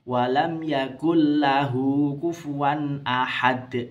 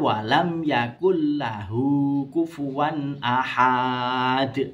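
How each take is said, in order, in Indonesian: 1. Suku kata terakhir pendek, tidak dipanjangkan. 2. Suku kata terakhir dibaca panjang. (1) "Itu pendek" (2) "Salah ya"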